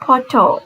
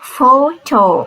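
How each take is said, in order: First: The word begins with a P sound. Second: The word begins with an F sound. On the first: The speaker calls it wrong. "We never say photo" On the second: The speaker calls it right. "It should be photo"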